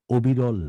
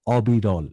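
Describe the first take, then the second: First: অবিরল with a rounded "o" at the start; teacher quoting অবিরল with closed o; mistaken vowel. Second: অবিরল with an open "ɔ" at the start; teacher's firm model অবিরল, open ɔ; corrected vowel. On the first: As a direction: say অবিরল as "obirɔl", the faulty way. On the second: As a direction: open the first vowel of অবিরল wide, "ɔbirɔl". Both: Shown as a demonstration. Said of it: "অবিরল না".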